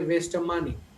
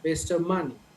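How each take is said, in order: No difference in how they are said.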